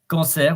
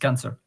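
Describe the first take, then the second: First: The word has French vowels and final-syllable stress. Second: The word has English vowels and first-syllable stress.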